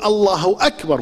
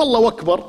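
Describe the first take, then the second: First: Said in the usual way. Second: الله أكبر with a w, اللهوَكبر; old man's اللهوَكبر; wrong w sound. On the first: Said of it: "لازم يقول". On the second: Shown as a demonstration. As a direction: slip a w between الله and أكبر. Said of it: "مو".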